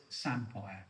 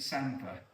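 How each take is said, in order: First: Lightly imitated Yorkshire "Samphire", ending -fire; Yorkshire accent. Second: "samphire" said as SAM-fer; local pronunciation. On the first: Quoting James Martin's correction, light Yorkshire accent. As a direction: mimic a Yorkshire "Samphire", a little lower. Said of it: "in his Yorkshire accent". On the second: Shown as a demonstration. Defending own local way, SAM-fer pronunciation. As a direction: say "samphire" with a weak -fer ending. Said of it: "me calling it samphire".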